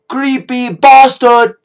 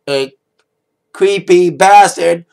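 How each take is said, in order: First: It is said in an English accent. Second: It is said in an American accent.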